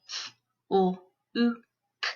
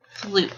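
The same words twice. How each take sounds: First: FLUKE split into four sounds; f... l... oo... k, separated; sounded out phonemes. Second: Said in the usual way. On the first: Shown as a demonstration. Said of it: "say the sounds in the word". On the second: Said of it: "put those sounds into a word".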